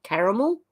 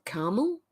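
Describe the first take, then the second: First: "caramel" as CARE-uh-mel, rising; three-syllable caramel. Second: "caramel" as CAR-mel, rising; two-syllable caramel. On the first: Streamer asking viewers the right word, three-syllable "caramel". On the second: Streamer offering viewers the alternative, "caramel" as CAR-mel. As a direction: say "caramel" in two syllables, middle vowel dropped. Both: Shown as a demonstration. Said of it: "Is that how you say".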